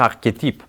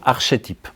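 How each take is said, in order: First: The ch sounds like k, unlike architecte. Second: The ch sounds like sh, as in architecte. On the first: It is the form others insist is required. "il faut dire archétype" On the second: It follows the pattern of similar Greek-origin words. "je disais toujours archétype, parce que j'avais dans la tête architecte, archevêque"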